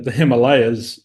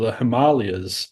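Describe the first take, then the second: First: It is said in an American pronunciation. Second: It is said in the local pronunciation. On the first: This is how Americans say it. "I think it's just American way of saying the, the Himalayas is the way we pronounce it" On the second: This is how the local people say it. "but they call it the Himalayas"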